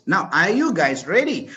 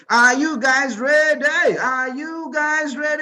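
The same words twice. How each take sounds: First: Said in the usual way. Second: Slow, loud, rising call to the crowd; rally the crowd like a hype man; drawn-out shout to get the audience going. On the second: Real, not acted. Host hyping up the audience.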